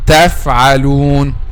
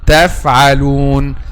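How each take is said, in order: First: The f has firm teeth-on-lip contact. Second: The f has firm teeth-on-lip contact.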